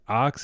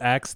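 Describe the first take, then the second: First: The word is said with the vowel of 'hot'. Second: The word is said with the vowel of 'cat'. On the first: The speaker calls it wrong. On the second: The speaker calls it right.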